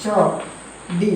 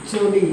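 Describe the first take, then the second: First: ചൊടി stretched very slowly; slow drawn-out demo. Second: Said in the usual way. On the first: Shown as a demonstration. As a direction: sound out ചൊടി syllable by syllable. (ചൊടി പതുക്കെ നീട്ടി) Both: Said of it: "പൊടി".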